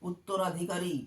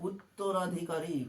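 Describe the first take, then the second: Both takes have the same delivery.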